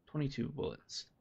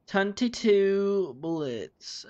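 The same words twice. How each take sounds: First: Said in the usual way. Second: Higher, louder and very slow; drawn-out sing-song. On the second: Shown as a demonstration. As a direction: stretch each word out playfully. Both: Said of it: "repeated drawn out".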